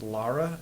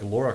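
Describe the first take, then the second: First: The first vowel sounds like the one in 'Tara'. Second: The first vowel sounds like the one in 'Tora'. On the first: The speaker calls it right. "it's Lara, L A R A" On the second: The speaker calls it wrong. "people are like Laura Croft"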